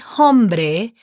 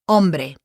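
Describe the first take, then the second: First: The word begins with an audible H sound. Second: The word begins directly with the vowel sound. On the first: The speaker calls it wrong. "H is silent. So don't say hombre because that won't be correct" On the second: The speaker calls it right. "H is silent"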